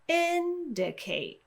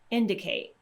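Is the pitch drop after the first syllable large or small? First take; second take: large; small. First: The pitch drops sharply after a high start. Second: The pitch drops only slightly after the start. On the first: "I'm exaggerating it a little bit so you can hear that difference in pitch" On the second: "I'm going to produce the word a little bit more naturally"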